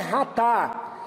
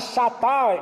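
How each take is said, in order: First: The word begins with a throaty 'h' sound. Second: The word begins with a 'sh' sound. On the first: It follows how the word is said in Hebrew. "mas a pronúncia no hebraico é Ratá" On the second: It follows how the word is written. "porque é escrito dessa forma"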